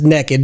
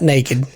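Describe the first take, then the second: First: The word sounds like 'nekkid', with a short vowel. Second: The word has the standard long 'ay' vowel. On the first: This is how the other person says it. "He says naked" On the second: This is not how the other person says it. "not naked"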